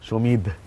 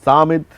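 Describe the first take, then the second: First: It ends with a breathy 'dh' in Bengali style. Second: It has a long 'a' and a plain 'd'. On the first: "যাতে সমিত না হয়ে যায়" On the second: "যারা একটু English"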